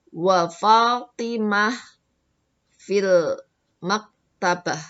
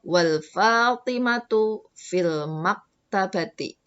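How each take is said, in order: First: The nouns end in h, without vowel endings. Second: The nouns end with full vowel case endings. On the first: "kalau mau diwakafkan belakangnya jadi Fatimah sama maktabah" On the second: "kalau mau diberi harokat"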